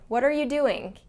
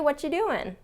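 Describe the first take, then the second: First: Every word is said fully in a strict tone. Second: The words are reduced in a relaxed, friendly tone. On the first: The listener may be in trouble. "Sounds more strict and formal and exact" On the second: It is a casual, welcoming greeting. "a more friendly, inviting, relaxed way of greeting someone"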